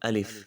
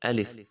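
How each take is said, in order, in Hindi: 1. दूसरा स्वर छोटा रखा जाता है। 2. दूसरा स्वर छोटा रखा जाता है।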